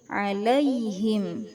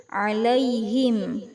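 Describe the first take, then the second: Both takes have the same delivery.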